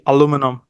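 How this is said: It is said the American way, aluminum. "Americans will say aluminum"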